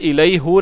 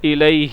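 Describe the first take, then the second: First: The pronoun ends with an 'u' vowel. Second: The pronoun ends with an 'i' vowel. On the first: The speaker calls it wrong. "ये इलई हु नहीं बनता" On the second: The speaker calls it right. "बल्कि इलई ही"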